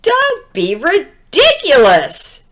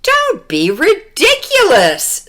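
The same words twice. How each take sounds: First: Dismissive police. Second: Dismissive mother. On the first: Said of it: "said the police". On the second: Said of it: "said her mother". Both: Acted.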